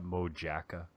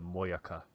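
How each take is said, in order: First: The word is said the anglicized way. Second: The word is said the Finnish way. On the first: The speaker is just some random person. The speaker calls it wrong. "like some just random guy" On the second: The speaker knows the food and has credibility. The speaker calls it right. "if you go to the the Finn restaurant and you want to show off"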